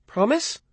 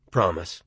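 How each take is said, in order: First: High rising mother's question; mother asking. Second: Said in the usual way. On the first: A narrator's reading. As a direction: coax a promise out of him. Mother asks for a promise.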